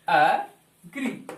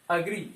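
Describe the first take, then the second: First: एग्री said very slowly with an open a sound at the start; drawn-out teaching model. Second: Said in the usual way. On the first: Shown as a demonstration. Teacher models एग्री slowly for students, stretched vowel. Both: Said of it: "अ sound हो रहा है".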